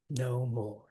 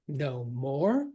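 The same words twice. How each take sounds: First: Both words are stressed equally. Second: Only the word 'more' is stressed. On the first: "we're going to spondy that" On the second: "Love the stress on more"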